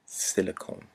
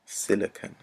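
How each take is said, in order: First: Silicone said with a long final cone sound; the slip Silicone, ending in a drawn-out cone; mispronounced word. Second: Silicon said with a short final con; corrected Silicon, ending in a short con; corrected pronunciation. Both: Real, not acted.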